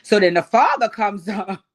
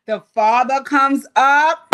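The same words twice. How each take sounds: First: Said in the usual way. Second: Drawn out, louder, each word weighted; slow dramatic repeat. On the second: Shown as a demonstration. Retelling the reality show scene to viewers, slow and louder. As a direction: drag it out for suspense, rising at the end.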